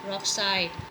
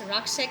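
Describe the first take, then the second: First: It is said with a local Angami Naga pronunciation. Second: It is said with a standard English pronunciation. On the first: "Angamis usually call it as rockside" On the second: "I mean in English language"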